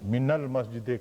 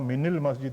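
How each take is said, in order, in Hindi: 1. शब्द 'min' एक गैर-i स्वर से जुड़ता है। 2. शब्द 'min' एक i स्वर से जुड़ता है। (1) "मिनल मस्जिद कहते हैं" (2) "मिनल मस्जिद नहीं कहते"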